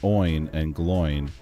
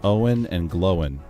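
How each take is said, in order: First: Each name is one syllable rhyming with coin. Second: Each name is split into two syllables. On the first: The speaker calls it wrong. "They are not pronounced to rhyme with coin" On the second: The speaker calls it right. "with two symbols"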